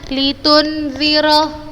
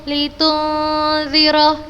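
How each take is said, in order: First: The n is pronounced clearly without nasal hum. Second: The n is blurred into a long nasal hum. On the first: The speaker calls it wrong. "bukan membacanya litunziro, bukan. Khoto, salah" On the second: The speaker calls it right. "ikhfa, samar"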